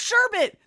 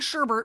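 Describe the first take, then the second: First: The word ends without an R sound. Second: The word ends with an R sound. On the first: "There's no R at the end" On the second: "I've been saying sherbet my whole life"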